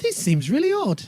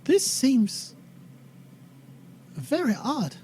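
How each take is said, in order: First: Put-on much higher, firmer character accent; leaning hard into Tracy's accent; Tracy's accent retry. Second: Put-on higher voice, accent not quite found; hesitant attempt at Tracy's accent; Tracy's slipping accent. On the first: Tracy speaking up on a second try, high emphatic accent. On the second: Tracy speaking up to the others, halting, slipping accent. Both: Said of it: "I lost her accent now".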